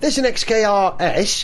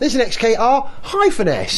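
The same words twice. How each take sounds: First: The letters run together with no break. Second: There is a break before the final S. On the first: The speaker calls it wrong. "don't shout to your car mate" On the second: The speaker calls it right. "You have to shout"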